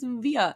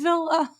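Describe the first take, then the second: First: The middle consonant is a Y-like sound. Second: The middle consonant is a clear L sound. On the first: The speaker calls it right. "It's Via" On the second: The speaker calls it wrong. "stop saying Villa"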